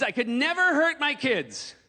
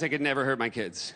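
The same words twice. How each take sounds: First: "never" stretched slow and high; emphatic protest. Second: Put-on low, falling "never hurt my kids"; toned-down assurance. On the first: Acted. Comic tells audience about own kids, emphatic protest. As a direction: protest it, drawing out "never hurt". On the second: Comic reassures the audience about own kids, toned-down assurance.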